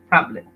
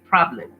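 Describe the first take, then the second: First: The r after the p is clearly pronounced. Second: The r after the p is clearly pronounced.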